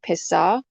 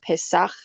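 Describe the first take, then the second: First: The word ends on an open vowel. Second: The word ends with a rough throat sound. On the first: The speaker calls it wrong. "ah sound without that" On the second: The speaker calls it right. "that noise in your throat"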